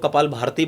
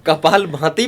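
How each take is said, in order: First: कपाल भारती said with an r, as many people wrongly say it; भारती with an r sound, the common mistake; common wrong name. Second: कपाल भाती said with no r, clearly भाती; correct pronunciation. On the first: Yoga teacher quoting the common mistake कपाल भारती. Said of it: "बहुत सारे लोग कपाल भारती बोलते हैं". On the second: Yoga teacher correcting the interviewer, saying कपाल भाती with no r. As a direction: say भाती cleanly, without the r of भारती. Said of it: "मैं करेक्ट कर देता हूँ". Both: Shown as a demonstration.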